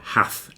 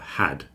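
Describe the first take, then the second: First: The word ends with a soft th sound. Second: The word ends with a clear d sound. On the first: The speaker calls it wrong. "People say hath instead of had" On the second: The speaker calls it right. "focus on that D at the end of the word"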